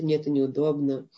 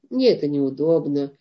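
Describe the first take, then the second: First: The phrase is said in a soft, gentle tone. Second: The phrase is said in a sharp, blunt tone. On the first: The refusal comes across as tactful. The speaker calls it right. "более обтекаемым тоном" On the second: The refusal comes across as harsh. The speaker calls it wrong. "более острым, как бы таким тоном"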